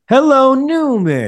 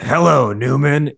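First: It is said in an imitated character voice. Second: It is said in a plain, ordinary voice. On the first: The speaker calls it right. "which is how Jerry says it" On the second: The speaker calls it wrong. "it wasn't Hello Newman"

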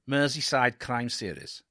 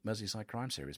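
First: It is said in a Welsh-sounding accent. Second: It is said in the speaker's usual accent.

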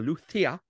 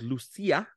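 First: The name is pronounced with a Spanish pronunciation. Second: The name is pronounced with an English pronunciation.

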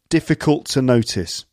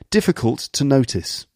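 First: It is said in an everyday English accent. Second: It is said in a posh English accent.

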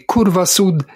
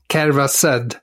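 First: It is said with standard Italian pronunciation. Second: It is said in a Liverpool Scouse accent. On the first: "då ändrar vi Curva Sud" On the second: "till Curva Sud"

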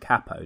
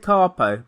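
First: The A in the word is hard. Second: The A in the word is soft. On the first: The speaker calls it right. "It's a hard A" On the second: The speaker calls it wrong. "you said capo"

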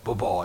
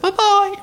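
First: It is said in a normal voice. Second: It is said in a very high-pitched falsetto.

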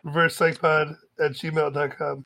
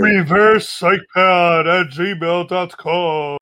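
First: It is said in a plain, ordinary voice. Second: It is said in a booming, theatrical voice.

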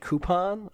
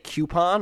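First: Coupon is said the standard, non-Jersey way. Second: Coupon is said the South Jersey way. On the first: The speaker calls it right. "I say coupon" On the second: The speaker calls it wrong. "I don't say coupon"

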